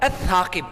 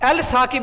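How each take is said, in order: First: The L merges into the doubled first consonant. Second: The L of the article is clearly pronounced. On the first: The speaker calls it right. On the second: The speaker calls it wrong.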